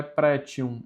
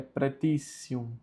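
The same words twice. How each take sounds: First: "pretium" as "pré-tchium"; wrong T pronunciation. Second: "pretitium" as "pre-tí-ssium"; TI as tsi. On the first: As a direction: say "pretium" with a ch sound for the t. ("pretium" com som de tchi, o jeito errado) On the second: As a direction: give the ti of "pretitium" a t-s sound. ("pretitium" com som de tissi) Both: Shown as a demonstration. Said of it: "o T com U mais vogal fica tissi".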